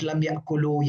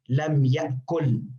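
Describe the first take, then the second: First: The last word ends with an added final vowel. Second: The last word ends abruptly with no final vowel. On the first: The speaker calls it wrong. "not lam yakulu" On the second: The speaker calls it right. "stop. Uh, no uh, no oo"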